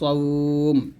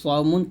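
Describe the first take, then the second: First: The word ends on a bare final consonant. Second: The word ends with a nasal 'un' ending. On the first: The reader stops at this word. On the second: The reading continues past this word.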